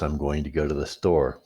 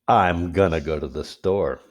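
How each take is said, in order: First: Both words of 'going to' are said fully. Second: 'Going to' is blended into 'gonna'.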